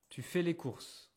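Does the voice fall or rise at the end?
falls. The voice falls at the end. It is a statement of information.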